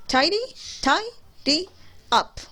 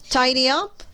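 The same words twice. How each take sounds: First: Tidy, tidy up broken into beats, pitch jumping higher on tidy; syllables split apart. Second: Said in the usual way. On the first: Shown as a demonstration. Teacher to students counting the syllables of Tidy, tidy up, split apart. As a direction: clap out Tidy, tidy and up with pauses between. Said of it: "We have three syllables".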